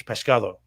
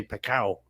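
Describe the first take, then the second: First: Pescado with every sound said, pes-CA-do; full Castilian pescado, the d clearly said; Castilian Spanish. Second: Pecao, the s and d dropped, Andalusian style; southern Spanish pecao, soft and clipped; Andalusian accent. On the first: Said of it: "fish in Spanish is pescado". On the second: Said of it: "down in the south of Spain they say pecao". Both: Shown as a demonstration.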